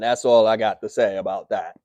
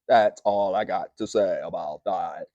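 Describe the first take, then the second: First: It is said in his normal speaking voice. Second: It is said in an imitated character voice.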